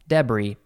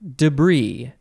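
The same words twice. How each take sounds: First: It is said with a British pronunciation. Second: It is said with an American pronunciation. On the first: "the British usually say" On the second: "I, as an American, have grown up saying debris"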